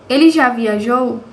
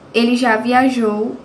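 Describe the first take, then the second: First: The voice rises at the end, as a question. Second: The voice falls at the end, as a statement.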